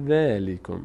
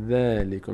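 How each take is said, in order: Both takes have the same delivery.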